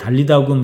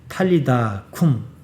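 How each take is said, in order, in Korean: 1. 첫 자음은 부드럽고 예사소리입니다. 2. 첫 자음은 세고 거센소리입니다.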